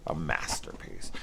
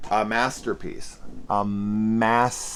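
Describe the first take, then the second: First: Whispered, much lower and softer; sarcastic whisper. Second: Sarcastic praise. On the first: Reviewer whispering a mock verdict on the film, sarcastic hush. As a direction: breathe it out like a secret joke. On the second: Sarcastic verdict, repeated. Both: Acted.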